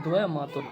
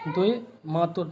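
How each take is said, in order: First: "द्वय मातुर" opening with द्वै; correct form. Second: "द्वय मातुर" opening with दोए; wrong form. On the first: Teacher correcting students, dvai opening. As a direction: sound d-v together in "द्वय मातुर". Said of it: "ये होता है". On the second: Teacher quoting the mistake, o opening. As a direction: say "द्वय मातुर" with an o vowel first. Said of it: "नहीं होता है". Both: Shown as a demonstration.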